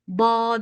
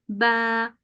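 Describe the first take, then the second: First: The vowel is a plain open a. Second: The vowel is soft, between a and e. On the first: The speaker calls it wrong. "ba değil" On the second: The speaker calls it right. "Yumuşatarak okuyorsunuz. A, E arası bir sesle"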